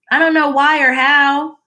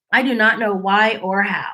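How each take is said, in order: First: Said in the usual way. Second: "I do not know" spelled out word by word, flat and firm; stress on not. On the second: Shown as a demonstration. Vlogger repeating herself to her viewers, firm stress. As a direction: land each word of "do not" deliberately.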